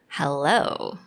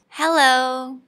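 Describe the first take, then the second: First: It is said in a sexy tone. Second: It is said in a happy tone. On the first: "What about sexy?" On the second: "say hello in a happy tone"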